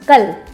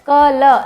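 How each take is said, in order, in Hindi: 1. अंतिम ल बिना किसी स्वर के बोला जाता है। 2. अंतिम ल के बाद एक पूरा स्वर बोला जाता है। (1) "तो हम ल को आधा बोलते हैं" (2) "क्या आप ऐसे बोलते हैं कल, ऐसे नहीं बोलते ना"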